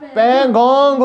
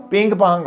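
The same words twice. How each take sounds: First: पेंगोंग said properly, peng-gong; correct name. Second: पिंग पांग, said as the mistaken name; wrong name. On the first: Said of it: "पेंगोंग उसको कहना था". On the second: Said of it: "पिंग पांग कह रही थी पेंगोंग की जगह". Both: Shown as a demonstration.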